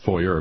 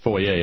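First: Foyer is said with an English pronunciation. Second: Foyer is said with a French pronunciation. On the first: The speaker calls it wrong. "and not foyer" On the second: The speaker calls it right. "Got to say foyer ... because it's a story about a French guy"

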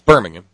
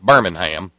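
First: The name is said in the British way. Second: The name is said in the American way. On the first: It names the city in England. The speaker calls it right. "It's Birmingham, as I've been told by our members of the Horn Family Commune congregation in the UK" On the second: It names the American city. The speaker calls it wrong. "not Birmingham, which is 125 miles southeast of where I grew up"

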